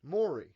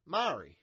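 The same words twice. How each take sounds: First: "Maury" tried as MOR-ee; copied pronunciation. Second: "Maury" said MAR-ee, with an open "ah"; own pronunciation. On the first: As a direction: try out "Maury" with "more" as first syllable. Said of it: "how do you say it?". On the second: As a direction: say "Maury" with the first syllable like "mar". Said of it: "did I say it weird?". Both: Shown as a demonstration.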